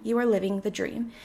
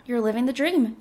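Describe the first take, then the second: First: "are" spelled out and stressed, rising. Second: Said in the usual way. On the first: Shown as a demonstration. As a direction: lean on the word "are".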